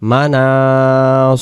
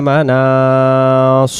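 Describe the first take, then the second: No difference in how they are said.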